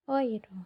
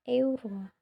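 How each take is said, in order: First: The first vowel sounds like 'oi'. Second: The first vowel sounds like 'e-u'. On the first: The speaker calls it right. "euro itu dibaca oiro" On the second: The speaker calls it wrong. "bukan euro"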